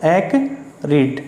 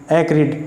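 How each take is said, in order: First: "एक्रिड" broken slowly into "ek", pause, "rid"; syllable-by-syllable pronunciation. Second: Said in the usual way. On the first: Shown as a demonstration. Teacher showing students the pronunciation, "एक्रिड" split slowly as ek - rid. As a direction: say "एक्रिड" slowly in two separate pieces, ek - rid. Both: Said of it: "इसकी pronunciation क्या होगी".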